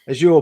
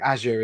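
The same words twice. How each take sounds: First: It is said with a British pronunciation. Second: It is said with an American pronunciation. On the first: "probably is the U K way" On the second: "is the this American way"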